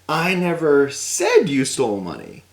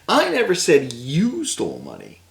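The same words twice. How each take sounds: First: The word said carries the stress. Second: The word you carries the stress. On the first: It was implied rather than said. "But maybe I implied it in a certain way" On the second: Someone else stole the money. "That guy stole money"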